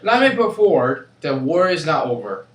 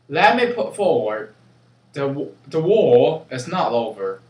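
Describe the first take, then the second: First: It is said in an American accent. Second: It is said in a British accent.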